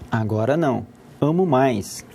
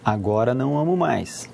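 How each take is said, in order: First: There is a pause after "não". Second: It flows with no pause after "não".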